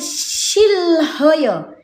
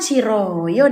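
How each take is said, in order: First: An l and h sound are pronounced mid-word. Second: The h is dropped and an r-like sound is heard. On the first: The speaker calls it wrong. "seharusnya kita baca gini nih" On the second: The speaker calls it right. "Perasaan shiroyo deh"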